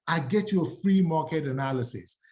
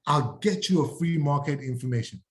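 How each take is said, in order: First: Free said with clear weight; stress on free. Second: Said in the usual way. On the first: Shown as a demonstration. Realtor selling the offer, stress on free. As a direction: lean on the word free. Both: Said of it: "emphasize the word all the time".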